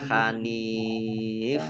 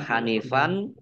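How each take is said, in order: First: The word ends on the f sound. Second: The word ends with an n sound. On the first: "dan juga tidak dibaca Hanif" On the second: "Tidak dibaca Hanifan"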